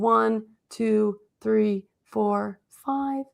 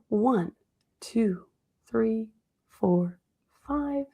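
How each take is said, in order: First: The counting is at a quicker pace. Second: The counting is at a slower pace.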